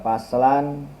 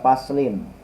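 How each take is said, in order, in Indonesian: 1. Kata itu berakhir dengan vokal a sebelum n. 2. Kata itu berakhir dengan vokal i sebelum n. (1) "boleh dibaca paslan" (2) "boleh dibaca paslin"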